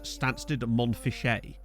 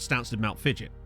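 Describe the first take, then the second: First: The ending is said with French-style sounds. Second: The ending is said like English 'mount fidget'. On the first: This is how outsiders on the news say it. "the news reporters would always refer to the town as" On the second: This is what the town is really called. "is actually called"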